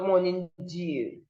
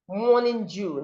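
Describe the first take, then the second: First: Dew does not begin with j. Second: Dew begins with a j sound. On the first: The speaker calls it wrong. "not morning dew" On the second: The speaker calls it right. "The same thing goes to this one"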